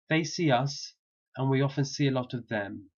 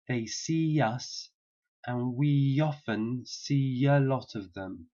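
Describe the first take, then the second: First: It is said at normal speed. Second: It is said slowly and carefully.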